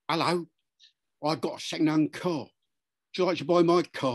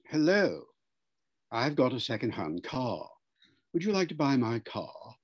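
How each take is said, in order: First: It is said in a Cockney accent. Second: It is said in a posh, upper-class accent. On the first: The speaker seems untrustworthy. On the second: The speaker seems honest and trustworthy.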